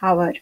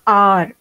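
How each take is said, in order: First: The word starts with an audible h sound. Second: The word starts with a vowel, h silent. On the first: The speaker calls it wrong. "and not hour" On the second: The speaker calls it right. "H O U R is pronounced R"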